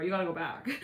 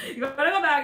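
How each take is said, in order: First: Said in the usual way. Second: Louder, higher heated repeat of the demand; heated insistence. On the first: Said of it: "all heated into the beef". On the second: Retold or imitated. Friend heatedly insisting the magician go back, louder and higher. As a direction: push it harder the second time, mock heated. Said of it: "all heated into the beef of the conversation".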